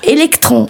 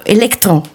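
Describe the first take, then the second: First: Électron said the Portuguese way, raised and falling; Portuguese electron. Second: Said in the usual way. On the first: Shown as a demonstration. Portuguese teacher giving the Portuguese word, Portuguese pronunciation. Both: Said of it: "l'accent sur le U".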